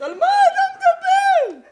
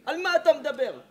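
First: Very high, slow laughing squeal; mock falsetto at a foolish boy; squeaky mock disbelief. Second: Said in the usual way. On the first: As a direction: stretch it out in a ridiculing falsetto. Mocking disbelief.

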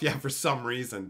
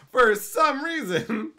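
First: Said in the usual way. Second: Mocking laugh. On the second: Mocking repeat of the excuse.

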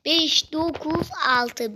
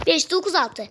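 First: "Beş dokuz altı" drawn out word by word; "Beş dokuz altı" at half speed, deliberately; slow spelling-out. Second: Said in the usual way. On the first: Shown as a demonstration. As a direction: read "Beş dokuz altı" very slowly, each number stretched. Spells code out slowly for viewers.

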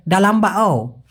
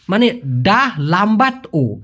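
First: "ডা লাম্বা ও" run together fast, dropping the t of লাম্বাট; quick regional slur. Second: "ডা লাম্বাট ও" said slowly, every sound clear with the ট sounded; careful full form. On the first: Teacher showing students the sloppy regional "ডা লাম্বা ও", clipped and quick. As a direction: slur it the way locals say it quickly, swallowing the ট. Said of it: "অনেকে আঞ্চলিকভাবে খুব দ্রুত বলে". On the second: Teacher giving students the correct "ডা লাম্বাট ও", slow and precise. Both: Shown as a demonstration.

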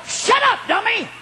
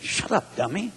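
First: High, shouted rebuke to himself; harder self-scolding. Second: Muttered self-scolding. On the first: Preacher retelling how he kicked himself, shouted scolding. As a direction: yell it at yourself in exasperation. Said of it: "I'm kicking myself harder". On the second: Preacher retelling how he told himself off, muttered. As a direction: scold yourself under your breath. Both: Retold or imitated.

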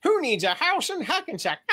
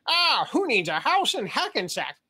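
First: Much higher mock pop star voice; [name] crossed with Darth Vader. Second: Slow, raised cartoon sailor voice; Popeye crossed with [name]. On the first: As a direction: Bieber meets Vader in one line. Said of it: "my [name] combined with Darth Vader impersonation". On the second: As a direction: Popeye drawl mixed with a singer. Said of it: "my Popeye impersonation crossed with a [name] impersonation".

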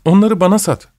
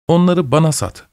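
First: Higher, more begging tone; yalvarır gibi, daha ısrarlı; pleading. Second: Shy request, a bit higher; bashful asking. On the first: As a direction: plead for it now. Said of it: "sesini daha yalvarır gibi çıkarıyordu". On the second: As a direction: ask timidly, half ashamed. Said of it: "utana utana söylendi". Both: A narrator's reading.

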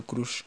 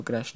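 First: "crush" with a Spanish U vowel; crush pronounced "croosh". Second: "crush" with an A vowel; crush pronounced "crash". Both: Shown as a demonstration. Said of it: "no sé cómo se le dice".

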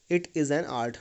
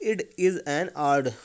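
First: Said in the usual way. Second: "It is an art" slow in a German accent, with "art" ending on D; German accent demo. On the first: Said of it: "आर्ट का मतलब यहाँ पे आर्ट से है". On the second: Shown as a demonstration. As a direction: demonstrate the German accent slowly, T turned to D. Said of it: "आप ध्यान से देखेंगे".

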